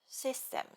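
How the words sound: Said with a Japanese accent and weak friction. The speaker calls it wrong. "the typical Japanese way without thinking"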